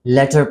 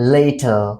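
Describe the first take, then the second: First: The word sounds like letter. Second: The word sounds like later. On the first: The speaker calls it wrong. "कुछ लोग इस word को L A T E R को letter पढ़ रहे होते हैं. And they are actually mispronouncing this word" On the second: The speaker calls it right. "So इसकी pronunciation later"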